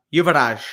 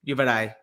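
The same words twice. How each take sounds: First: Yuvaraj said slowly with an emphatic last syllable; name pronounced slowly. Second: Yuvaraj ending open like "eye"; alternative pronunciation. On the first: Host attempting a viewer's name, slow careful pronunciation. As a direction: draw out Yuvaraj, leaning on the end. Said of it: "can you pronounce my name". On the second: Host trying another version of a viewer's name, alternative pronunciation. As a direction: say Yuvaraj with the last syllable as "dye". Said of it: "Yuvaraj or Yuvaraj". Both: Shown as a demonstration.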